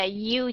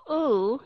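First: U with a y before it, yoo; glided yoo sound. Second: U as a long oo, no glide; plain oo sound. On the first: Teacher asking students to hear the difference, glided demonstration. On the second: Teacher asking students to hear the difference, glideless demonstration. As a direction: say "u" as pure oo. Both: Shown as a demonstration. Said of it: "Thấy sự khác biệt của u".

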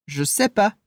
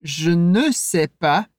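First: "Je sais pas" with "ne" dropped; casual, skip the ne; relaxed spoken French; colloquial negation. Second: Slow, with "ne" kept; careful formal French; formal full negation. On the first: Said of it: "da maneira mais coloquial". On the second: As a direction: say "Je ne sais pas" with ne clearly voiced. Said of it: "de maneira mais clássica ou mais formal". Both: Shown as a demonstration.

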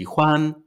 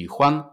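First: Huan held out on a high level tone; full first tone. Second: Huan short and light, without its own tone; neutral light tone. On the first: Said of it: "ale nikt nie mówi". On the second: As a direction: let huan drop into the toneless neutral syllable. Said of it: "huan już nie ma tonu". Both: Shown as a demonstration.

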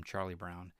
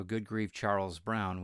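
First: "Charlie Brown" with the nickname Charlie; "Charlie Brown", said plainly; kids' correction. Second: "Charles Brown" said in full, Charles not Charlie; "Charles Brown", louder, the formal name; dad's proper name. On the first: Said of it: "we would always correct him". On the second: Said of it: "was just what my dad said". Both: Retold or imitated.

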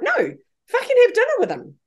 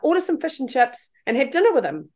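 First: Much higher, swooping, emphatic push; emphatic insistence. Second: Said in the usual way. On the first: Retold or imitated. Repeating her advice to doubting mourners, emphatically insistent. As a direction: insist against their disbelief.

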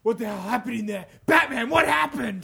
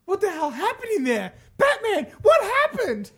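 First: Lightly voiced commissioner, louder at the end; Commissioner Gordon. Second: High, strained cry to Batman; hammed-up high voice, building louder; frantic character voice. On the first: Shown as a demonstration. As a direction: redo it as an urgent police chief. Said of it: "So that should have been like". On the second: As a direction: call out in high-pitched alarm. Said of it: "Did I do that in the right voice?".

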